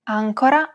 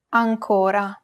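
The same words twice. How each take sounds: First: "Ancora" stressed on the first syllable, AN. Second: "ancora" stressed on the middle syllable, CO; stress on second syllable. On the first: Teacher distinguishing look-alike words, "Ancora" stressed on first syllable. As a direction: hit the opening "An" of "Ancora". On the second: Teacher distinguishing look-alike words, "ancora" stressed on second syllable. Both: Shown as a demonstration. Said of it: "help the reader distinguish between two words".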